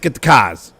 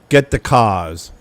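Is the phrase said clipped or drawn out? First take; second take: clipped; drawn out. First: The words are quick and sharp. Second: The words are slow and drawn out. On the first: This is how people speak in Pittsburgh. "It's a little bit sharper" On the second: This is how people speak in the speaker's home area. "more drawn out and lazy"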